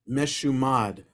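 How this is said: It is said with a Hebrew pronunciation. "the Hebrew term for apostate is meshumad"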